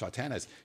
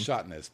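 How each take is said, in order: First: The name is said with three syllables. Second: The name is said with two syllables. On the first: The speaker calls it right. "It's Shotanis" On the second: The speaker calls it wrong. "That's what I usually say is Shotness, but it's wrong"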